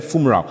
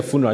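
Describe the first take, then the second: First: "funeral" with an m in place of the n; child's mispronunciation. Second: Said in the usual way. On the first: Retold or imitated. Uncle quoting his little niece's slip, "funeral" mispronounced as "fumeral". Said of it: "she said funeral". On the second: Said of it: "she didn't even say the funeral".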